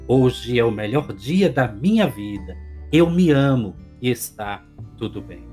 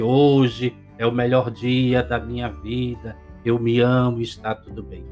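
First: It is said with warm, felt emotion. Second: It is said flatly, without feeling.

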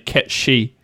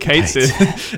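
First: The name sounds like 'Ket She'. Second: The name sounds like 'Kate Sith'. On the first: This is how Gaelic speakers say it. "except for the people who speak Scottish Gaelic" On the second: This is how most people read the spelling. "everyone thinks this character's called Kate Sith"

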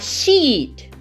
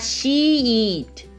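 First: The word is said quickly, vowel kept short. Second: The word is said slowly, vowel drawn out. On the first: The speaker calls it right. "um nativo, ele vai falar muito rápido isso" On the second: The speaker calls it wrong. "ele não vai falar she eat, né? Como uma criança"

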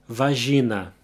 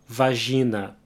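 Both takes have the same delivery.

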